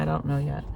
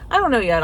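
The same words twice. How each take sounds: First: Said in the usual way. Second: "I don't know yet" said again, higher and louder; louder repeat. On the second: Real, not acted. Deciding on McDonald's for dinner, a louder playful repeat.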